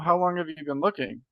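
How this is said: It has a questioning, rising tune. "That's that's a question tonality"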